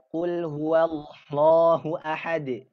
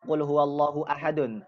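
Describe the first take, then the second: First: The last word ends on a bare d sound. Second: The last word ends with an added un sound. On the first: The speaker calls it right. "berarti mati" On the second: The speaker calls it wrong. "itu uh, keliru"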